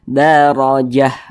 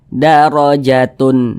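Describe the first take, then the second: First: The word ends with a soft h sound. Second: The word ends with a t and tun nasal. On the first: The speaker calls it right. "Kalau berhenti, kalau berhenti jadi huruf H" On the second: The speaker calls it wrong. "jangan kita baca seperti ini"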